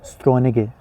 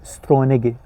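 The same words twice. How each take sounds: Both takes have the same delivery.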